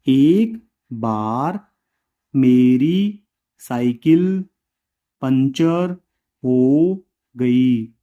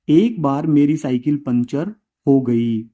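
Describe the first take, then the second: First: Slow, word by word for writing down; slow dictation. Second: Said in the usual way. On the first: Shown as a demonstration. Teacher dictating slowly to the class. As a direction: spell it out slowly so students can copy.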